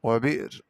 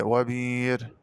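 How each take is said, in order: First: Said in the usual way. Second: وبير with a long ee and no stop; smooth held vowel in وبير; hamza as ya. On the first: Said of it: "قرأ بدال الهمزة". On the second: Shown as a demonstration. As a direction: say وبير as "wa-biir". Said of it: "بدال الهمزة ياء مادية".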